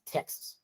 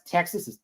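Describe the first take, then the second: First: "Texas" squashed, second vowel swallowed; Texan pronunciation. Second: Said in the usual way. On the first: Retold or imitated. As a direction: say "Texas" like a local, nearly "Tex's". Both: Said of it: "the way to pronounce Texas".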